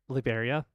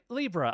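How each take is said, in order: First: The name is said with four syllables. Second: The name is said with two syllables. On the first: The speaker calls it wrong. "I feel like I mispronounced the name" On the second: The speaker calls it right. "it's supposed to read like Libra"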